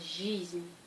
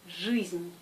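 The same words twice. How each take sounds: First: The vowel after the consonant sounds soft, like и. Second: The vowel after the consonant sounds hard, like ы. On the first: The speaker calls it wrong. "Pas жизнь" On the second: The speaker calls it right. "Le G est toujours dur. Alors c'est жизнь"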